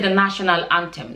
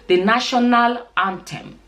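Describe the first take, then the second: First: Some sounds are reduced and run together. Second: Every sound is fully and clearly pronounced. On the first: The speaker calls it wrong. "don't say" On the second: The speaker calls it right. "say every single letter in the word"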